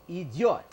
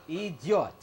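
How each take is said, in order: Both takes have the same delivery.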